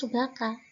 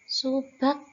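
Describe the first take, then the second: First: An extra vowel a follows the final k. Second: The word ends on k with no vowel. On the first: The speaker calls it wrong. "Ini bukan subaka" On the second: The speaker calls it right. "tapi dibaca subak begitu"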